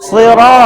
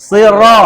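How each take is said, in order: The two takes are said the same way.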